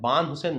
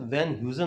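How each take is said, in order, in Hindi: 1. नाम की शुरुआत 'ब' की आवाज़ से होती है। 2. नाम की शुरुआत 'व' की आवाज़ से होती है। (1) "बान हुसैन नहीं होता है" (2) "वैन ह्यूजन होता है"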